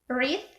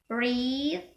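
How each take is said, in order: First: The vowel is said short. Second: The vowel is said long. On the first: "This is short e" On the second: "So for the long e is"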